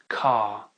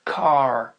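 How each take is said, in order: First: The R is dropped and the vowel lengthened. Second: The R is clearly sounded after the vowel. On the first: "mais on va dire car" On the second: "on va pas dire car"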